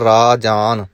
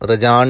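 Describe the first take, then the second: First: The first vowel is long. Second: The first vowel is short. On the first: The speaker calls it right. "ਰਾਰੇ ਨੂੰ ਕੰਨਾ ਲੱਗਾ ਹੋਇਆ" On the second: The speaker calls it wrong. "ਰਜਾਨ ਨਹੀਂ ਕਹਿਣਾ"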